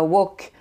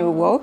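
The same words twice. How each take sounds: First: The vowel is one plain sound, like wok. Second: The vowel glides between two sounds. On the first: The speaker calls it wrong. "qui ne se prononce pas woke comme un, comme un instrument de cuisine" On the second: The speaker calls it right. "c'est une diphtongue, il y a deux, deux sons"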